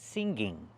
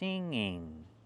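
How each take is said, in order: First: A hard g sound is heard mid-word. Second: A nasal sound is heard mid-word. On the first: The speaker calls it wrong. "We don't pronounce the word singing. There's no g in the middle" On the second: The speaker calls it right. "There's no hard g sound. It's in your nose"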